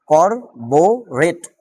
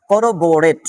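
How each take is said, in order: First: করবোরেট drawn out very slowly, each syllable separate; করবোরেট stretched slow syllables for a vocabulary class; slow syllable-by-syllable pronunciation. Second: Said in the usual way. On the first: Shown as a demonstration. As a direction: spell out করবোরেট slowly for students, kor-bo-ret. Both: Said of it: "দেখেন, এটা উচ্চারণ হবে".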